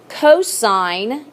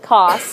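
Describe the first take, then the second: First: The full word is said in three syllables. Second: A short form is said in one syllable. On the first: The speaker calls it right. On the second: The speaker calls it wrong.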